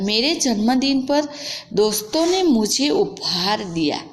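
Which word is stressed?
जन्मदिन. The stress is on 'janmadin'.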